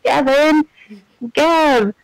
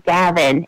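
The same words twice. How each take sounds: First: A higher mock call for a lost friend; mock shout. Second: Said in the usual way. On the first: Gamer imitating the game character calling for Gavin, mock shout. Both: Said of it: "he's shouting".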